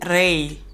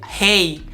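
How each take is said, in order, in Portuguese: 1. O primeiro som é um R bem articulado. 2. O primeiro som é parecido com um H, com sopro. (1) "ao invés de" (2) "pronuncia como se fosse H"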